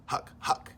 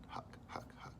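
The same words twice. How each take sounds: First: Breathless voiceless choking huck; choking huck noise. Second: Quiet choking huck. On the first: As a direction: gag on the air, no voice. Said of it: "he's making this huck". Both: Acted.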